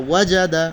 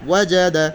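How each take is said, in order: No difference in how they are said.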